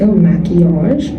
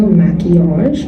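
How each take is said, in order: First: The name is said in an exaggerated, funny way. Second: The name is said in an exaggerated, funny way.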